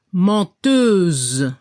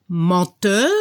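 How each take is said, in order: First: Menteuse ending on a drawn-out buzzing Z; low, slow French Menteuse with Z ending; final Z sounded. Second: Menteur with a faint French R at the end; French menteur, ending on a light R; light final R. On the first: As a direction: voice the Z in Menteuse, leave the E silent. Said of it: "se debe escuchar la Z". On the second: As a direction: let the R of menteur be just heard. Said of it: "poco la R al final". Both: Shown as a demonstration.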